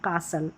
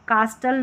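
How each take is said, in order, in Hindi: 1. बीच में t की आवाज़ नहीं बोली जाती। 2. बीच में t की आवाज़ बोली जाती है। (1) "टी साइलेंट रहता है" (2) "कास्टल नहीं"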